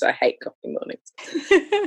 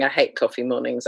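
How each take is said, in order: First: "I hate coffee mornings" pitched much higher and slower, mornings rising; high, drawn-out whine on "I hate coffee mornings"; mock dramatic groan. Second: Said in the usual way. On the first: Shown as a demonstration. Repeating her complaint to the podcast host as a mock whine.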